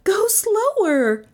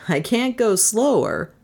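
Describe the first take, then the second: First: High, drawn-out cry of protest. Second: Slightly higher protest, far below her cry; dry Trent. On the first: A narrator's reading. Passenger urging the driver, high cry. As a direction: cry out high, stretching the words. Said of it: "Melissa cried". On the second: Acted. Driver answering his passenger, mild protest. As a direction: answer back without crying out.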